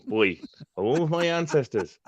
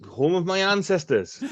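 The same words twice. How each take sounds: First: Hammed-up Welsh accent on "boy, home of my ancestors"; lilting mock Welsh, proud of "ancestors". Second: Said in the usual way. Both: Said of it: "love that Welsh accent".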